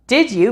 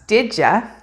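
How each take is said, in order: First: The word 'you' is said fully and separately. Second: The word 'you' is reduced to a weak 'ya'.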